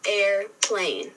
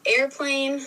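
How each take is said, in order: First: "airplane" broken into air, plane; split into syllables. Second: Said in the usual way. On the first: Shown as a demonstration. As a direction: say "airplane" as two separate beats. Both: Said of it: "break down those syllables".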